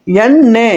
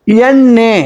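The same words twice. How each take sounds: The two takes are said the same way.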